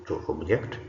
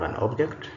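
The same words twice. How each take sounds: First: To obJECT, verb stress; stress on second syllable. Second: An OBject, noun stress; stress on first syllable. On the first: Teacher reads the bold verb, second-syllable stress on "object". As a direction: hit "ject" in "to object". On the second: Teacher reads the bold noun, first-syllable stress on "object". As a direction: hit "ob" in "an object". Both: Shown as a demonstration. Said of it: "emphasis is going to be on the words".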